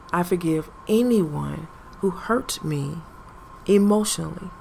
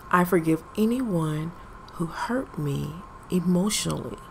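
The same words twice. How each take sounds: The two takes are said the same way.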